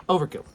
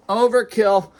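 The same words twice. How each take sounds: First: Said in the usual way. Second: "Overkill" said higher and louder, hit hard; emphatic overkill. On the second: Shown as a demonstration. Vlogger scolding himself about his clutter, loud emphatic "Overkill". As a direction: punch "Overkill" up high and loud. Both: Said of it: "repeats the word louder".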